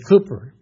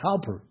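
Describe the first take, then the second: First: The first vowel sounds like 'coo'. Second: The first vowel sounds like 'cow'. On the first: The speaker calls it right. "but it's Cooper" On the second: The speaker calls it wrong. "I say Cowper"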